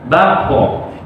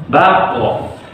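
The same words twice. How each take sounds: The two takes are said the same way.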